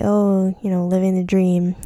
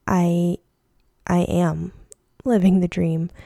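First: Mildly sarcastic stock reply. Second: Halting, sincere realization; mean it this time, with pauses between phrases. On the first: Retold or imitated. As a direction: toss it off with a touch of irony. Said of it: "kind of sarcastically". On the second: Real, not acted.

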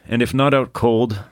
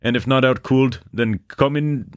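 First: Said in the usual way. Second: High-pitched mock Canadian, "cold" said as "cooled"; hammed-up Canadian lilt, pitched high; bad Canadian accent. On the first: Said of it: "I'm not gonna beslander the Canadians". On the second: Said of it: "slander the Canadians with my bad accent".

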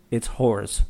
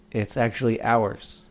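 First: "whores" with a clear breathy H at the start; wrong pronunciation. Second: "hours" said with a silent H, like ours; "it's actually hours" with no H sound at the start; correct pronunciation. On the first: Retold or imitated. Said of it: "And he goes". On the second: Shown as a demonstration. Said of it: "The H is silent".

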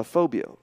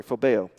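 First: Phobio said with an o sound before the last o, fo-bee-oh; mispronounced phobio. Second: Phobeo said fo-beh-oh, with an e sound before the last o; corrected phobeo. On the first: Preacher stumbling over the Greek word, saying phobio as fo-bee-oh. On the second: Preacher correcting his Greek, saying phobeo as fo-beh-oh. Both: Real, not acted. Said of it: "sorry, phobeo".

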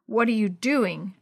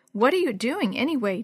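First: Slow, lightly growled question; mild growl. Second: Mildly suspicious question, raised in pitch. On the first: Tevin catching Jenny at the blanket, mildly growling. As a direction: growl it slowly, without raising the pitch. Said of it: "a deep voice growled". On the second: Dee Dee questioning Jenny in Tevin's room, mildly suspicious. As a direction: ask with a touch of suspicion. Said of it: "Dee Dee asked suspiciously". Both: A narrator's reading.

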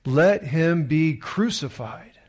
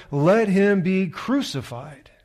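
First: Slow, loud demand; slow crowd demand. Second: Higher, louder, slow shout. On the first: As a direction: call it out slowly. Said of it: "They all said". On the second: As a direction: shout it slowly to the crowd. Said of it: "But they shouted all the more". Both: A narrator's reading.

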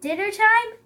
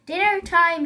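First: High, loud question; questioning echo. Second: Raised, loud predator's announcement; mild growl. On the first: Elephant answers the pouncing Lion, questioning echo. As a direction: echo it back with interest. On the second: Lion pounces over the bush, mild growl. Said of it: "he growled". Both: A narrator's reading.

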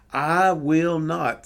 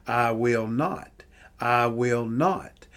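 First: I will not pushed louder, lean on I; emphatic third time. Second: I will not drawn out slowly; slow emphatic repeat. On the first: Preacher to congregation, emphatic louder final repeat. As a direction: land the third I will not hard and loud. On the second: Preacher to congregation, slow emphatic repeat. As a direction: lean on not, slow and deliberate. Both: Shown as a demonstration. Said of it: "third time for emphasis".

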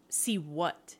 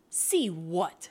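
First: Understated, quibbling question. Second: Lightly mocking echo. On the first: Man dodging her order to show it, quibbling. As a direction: play innocent with a small quibble. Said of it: "he quibbled". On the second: Woman echoing his quibble back, mocking. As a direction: parrot the question back in mockery. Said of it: "she mocked". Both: A narrator's reading.

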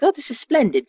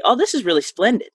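First: High-pitched mock British delivery; UK-style imitation. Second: Lightly voiced mother, lifted pitch; a higher, American-accented imitation of mom; quoting mother's vernacular. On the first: Showing how splendid sounds in the UK, mock British. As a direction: put on a higher, proper UK voice. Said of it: "like a U K, right?". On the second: Daughter showing how her mother says splendid, lightly imitated. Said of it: "she says it in an American accent".

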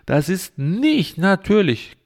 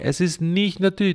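First: Nicht drawn out and leaned on, slowly; firm, slow insistence on nicht; stress on nicht. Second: Trust-me stress on natürlich. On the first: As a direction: hammer the word nicht, slowly. Insisting on the point, said twice. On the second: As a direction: land the weight on natürlich. Repeats the claim after vertraue mir. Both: Acted.

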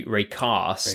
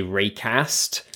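First: Raycast with a long broad a, southern English. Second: Raycast with a short flat a, northern English. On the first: British guest showing the southern pronunciation. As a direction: say Raycast like a south-coast Brit. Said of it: "I'm on the south coast". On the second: British guest showing the northern pronunciation. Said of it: "if you were up north". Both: Shown as a demonstration.

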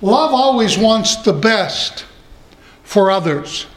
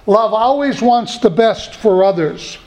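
First: Slow, weighty first statement with love stressed; slow emphasis. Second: Said in the usual way. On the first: Shown as a demonstration. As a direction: lay it down slowly, leaning on love.

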